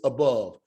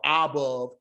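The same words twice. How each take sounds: First: The first vowel is a short, hurried uh. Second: The first vowel is a full, long ah. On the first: The speaker calls it right. "it's above. So it's hurried" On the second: The speaker calls it wrong. "we don't say a above or above"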